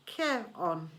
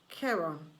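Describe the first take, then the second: First: Charon spelled out, said as KAIR-on; Charon said slowly. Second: Charon echoed as KAIR-on; Charon repeated. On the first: Charon correcting Percy, Charon said carefully. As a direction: teach the name Charon. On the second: Percy repeating after Charon, Charon echoed. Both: A narrator's reading. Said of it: "Say it with me".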